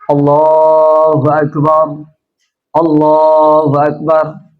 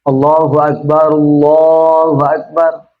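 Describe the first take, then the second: First: The two phrases are separated by a pause. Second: The two phrases are joined without a pause. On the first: "Kalau Syekh bin Baz" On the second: "Kalau Syekh Albani"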